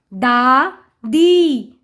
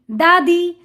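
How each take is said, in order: First: दा and दी slow and separate; sounding out. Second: Said in the usual way. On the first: Shown as a demonstration. Teacher reading to children, syllable by syllable. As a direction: stretch both halves: दा... दी. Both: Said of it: "उच्चारण करके पढ़ लिया".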